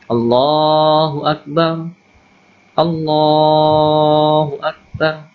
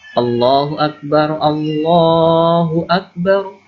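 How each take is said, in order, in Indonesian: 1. Frasa-frasa itu dipisah dengan jeda. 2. Kedua frasa mengalir menyatu dalam satu tarikan napas. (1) "Jangan dipisah-pisah" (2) "dibaca dengan satu kali nafas"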